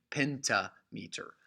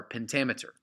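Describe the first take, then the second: First: "pentameter" as two words, "PENTA, METER"; "PEN-ta MEE-ter", in separated halves; split pronunciation. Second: Said in the usual way. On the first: Shown as a demonstration.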